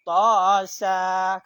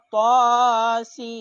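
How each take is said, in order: First: The last letter is read with a short vowel. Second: The letters are read by their full names. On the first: The speaker calls it wrong. "Kan salah" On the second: The speaker calls it right. "Karena tulisan sin adalah sinu"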